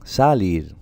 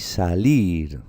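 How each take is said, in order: First: Salir stressed on the first syllable, SA-lir; wrong stress on SA. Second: Salir drawn out slowly with force on LIR, sa-LIR; stress on final syllable. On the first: Teacher shows pupils how not to say it, Salir stressed as SA-lir. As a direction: punch the SA of Salir, let lir drop. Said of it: "¿cómo la pronunciáis, chicos? Salir, no". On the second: Teacher shows pupils the right way, salir stressed as sa-LIR. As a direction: lean long on the LIR of salir. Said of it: "con la fuerza, con la intensidad en esta sílaba". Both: Shown as a demonstration.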